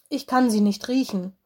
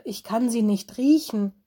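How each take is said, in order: First: Said in the usual way. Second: Riechen pressed firmly, falling at the end; stress on riechen. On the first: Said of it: "raunte Mino". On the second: Acted. Mino corrects Lenny, stressing riechen. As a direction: hit riechen to mean smell literally. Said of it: "Ich sagte".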